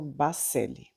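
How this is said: The name is said with Brazilian pronunciation. "Aqui no Brasil, algumas pessoas... pronunciam"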